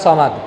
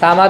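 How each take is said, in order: First: The first s sound is heavy and full. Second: The first s sound is light and plain. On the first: The speaker calls it right. "সদ জবর এই সমাদ" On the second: The speaker calls it wrong. "তো সামাদ বলতেছো কে কেন?"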